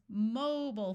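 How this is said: American accent, reduced vowel in the second syllable. "in the United States, we call cell phones mobile phones, where the first syllable is accented with a clear O sound"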